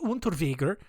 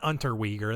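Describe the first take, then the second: First: The name is said with a non-American pronunciation. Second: The name is said with an American pronunciation. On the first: The speaker calls it right. "It's probably Unterweger" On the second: The speaker calls it wrong. "It's not Unterweger. That's the American way of saying it"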